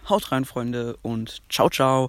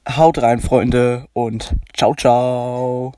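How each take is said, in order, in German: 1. Die Stimme klingt natürlich, ohne elektronischen Effekt. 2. Die Stimme klingt elektronisch verändert, durch einen Verzerrungseffekt.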